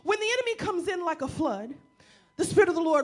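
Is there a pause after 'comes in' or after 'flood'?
after flood. The pause comes after 'like a flood'.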